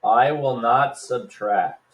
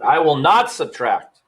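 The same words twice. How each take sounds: First: "not" slow and leaned on; stress on not. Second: "not" hit firmly, a bit louder; stress on not. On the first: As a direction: press down on "not" as you write it. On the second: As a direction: punch "not" like a rule. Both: Shown as a demonstration. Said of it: "and emphasize not".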